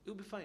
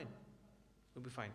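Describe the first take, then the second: First: Said in the usual way. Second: Softer and slow, trailing into near hush; soft slow repeat. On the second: Shown as a demonstration. Teacher reassuring students their prayer is fine, softer and slow. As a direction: let it settle gently, slowly and softly.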